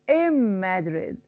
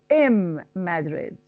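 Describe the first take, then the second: Both takes have the same delivery.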